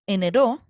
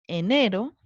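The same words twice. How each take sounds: First: The stress is on the last syllable. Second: The stress is on the middle syllable. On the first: The speaker calls it wrong. "¿Se acentúa en la última?" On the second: The speaker calls it right. "Se acentúa en la penúltima"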